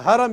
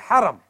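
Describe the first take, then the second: First: The first sound is a plain, light 'h'. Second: The first sound is a throaty, raspy 'h'. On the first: The word means forbidden. The speaker calls it wrong. "So you don't go to the Haram" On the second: The word means sanctuary. The speaker calls it right. "you go to the Haram"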